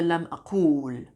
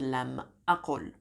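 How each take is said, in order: First: The middle vowel of aqul is long. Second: The middle vowel of aqul is short. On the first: The speaker calls it wrong. "I didn't say lam aqul" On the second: The speaker calls it right. "I said lam aqul"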